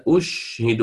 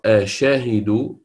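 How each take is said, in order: First: أشهد with silent shin; Nafi reading. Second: Slow أشهد with open shin, rising; the others' reading. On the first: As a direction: clip أشهد with sukun on the shin. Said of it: "وهو يقرأ". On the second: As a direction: stretch أشهد with voweled shin. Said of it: "البقية تقرأ". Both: Shown as a demonstration.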